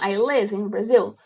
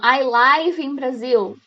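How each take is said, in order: First: 'Live' is said with the vowel of 'give'. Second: 'Live' is said with the vowel of 'five'. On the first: It means residing somewhere. The speaker calls it right. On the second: It means broadcast live. The speaker calls it wrong.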